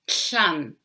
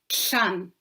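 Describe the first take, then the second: First: The s has air flowing out the sides. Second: The same.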